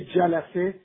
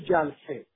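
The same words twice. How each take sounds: First: The word is said with three syllables. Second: The word is said with two syllables. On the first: "سه تا سیلاب" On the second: "میشه دو تا سیلاب"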